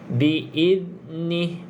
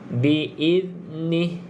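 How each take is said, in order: Both takes have the same delivery.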